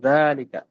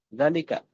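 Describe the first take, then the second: First: The first vowel is long. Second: The first vowel is short. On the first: The speaker calls it right. "maka dibacanya zalika" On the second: The speaker calls it wrong. "Kalau nggak ada alifnya maka dibacanya pendek"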